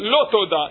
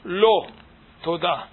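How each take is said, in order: First: The two words run together without a pause. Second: There is a pause between the two words. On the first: No thanks is owed. "nem köszönöm" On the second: No, and thank you for asking. "Lo, toda, nem. Köszönöm"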